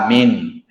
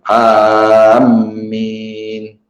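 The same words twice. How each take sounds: First: The first vowel is short and the m single. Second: The first vowel is long and the m doubled. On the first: "dipendekkan a dan mimnya itu tidak bertasydid" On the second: "dipanjangkan alif, mimnya itu bertasydid"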